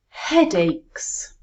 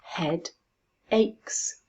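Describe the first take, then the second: First: Said in the usual way. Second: HEADACHES split into Head, then aches, with a pause; Head... aches, each syllable said on its own. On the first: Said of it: "Let's put them together". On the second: Shown as a demonstration. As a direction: break "Head aches" into two separate beats. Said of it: "How many syllables?".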